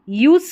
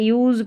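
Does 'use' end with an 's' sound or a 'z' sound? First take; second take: s; z. First: The word ends with an 's' sound. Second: The word ends with a 'z' sound. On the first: The speaker calls it wrong. "यूज नहीं पढ़ना है" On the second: The speaker calls it right. "यूज पढ़ना है, ऐसे है ना, उसको ज पढ़ा गया है।"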